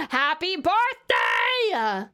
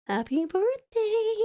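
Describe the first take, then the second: First: Slow, stretched-out birthday shout; celebratory cheer. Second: Slow, high, put-on little voice; high birthday coo. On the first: Real, not acted. Sister celebrating her brother's birthday in chat, celebratory cheer. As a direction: cheer it out, drawing the words long. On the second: Sister repeating birthday wishes to her brother, high coo. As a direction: draw it out high, without shouting.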